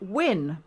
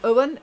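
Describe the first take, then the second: First: The name sounds like the English word win. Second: The name sounds like the English name Owen. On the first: This is how locals say it. The speaker calls it right. "is actually win" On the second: This is how outsiders say it. The speaker calls it wrong. "which we always said Owen"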